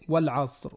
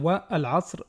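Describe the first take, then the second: First: The words run together without a glottal stop. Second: The glottal stop before the article is pronounced. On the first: The speaker calls it right. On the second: The speaker calls it wrong. "On ne va pas dire"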